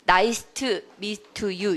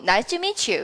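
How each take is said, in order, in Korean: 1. meet의 t는 분명하게 발음해요. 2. meet의 t는 탈락해요. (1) "이렇게 안 하고" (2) "이렇게 해요"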